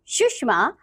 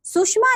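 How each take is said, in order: First: सुषमा with a clear "sh" in the middle; correct सुषमा. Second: सुषमा with "s" in place of "sh"; mispronounced सुषमा. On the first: Teacher giving children the right form, correctly pronounced. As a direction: say सुषमा carefully as "sushma". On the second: Teacher showing children a wrong form, mispronounced. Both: Shown as a demonstration. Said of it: "नहीं".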